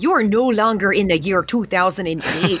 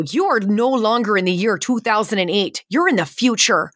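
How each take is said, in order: First: Thick, hammed-up Fargo accent; exaggerated Midwestern accent. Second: Lightly put-on Midwestern accent, pitch lifted. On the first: Ride actor telling guests they've time-travelled, in an exaggerated Midwestern accent. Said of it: "I'm exaggerating it now". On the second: Ride actor telling guests they've time-travelled, in a light Midwestern accent. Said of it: "got in trouble for that accent".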